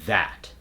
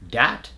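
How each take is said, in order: First: It begins with a voiced TH sound. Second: It begins with a D sound. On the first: The speaker calls it right. "the way we want to say it in an American accent" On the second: The speaker calls it wrong. "common words that use the D substitution"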